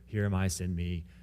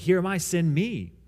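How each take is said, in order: First: It is said reluctantly, without enthusiasm. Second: It is said joyfully, with eager enthusiasm.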